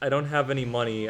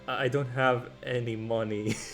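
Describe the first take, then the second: First: It is said more loudly. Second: It is said very softly.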